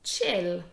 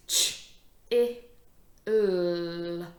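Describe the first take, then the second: First: CHILL blended as one word, louder. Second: CH, I, L separately, L held loud; sounded out. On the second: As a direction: sound out "ch-, i-, l" with gaps. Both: Shown as a demonstration. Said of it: "This word is".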